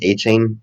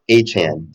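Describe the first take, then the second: First: The second syllable sounds like 'chain'. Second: The second syllable sounds like 'chan'. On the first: The speaker calls it wrong. "not Chain" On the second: The speaker calls it right. "he wants us to pronounce his name A Chan"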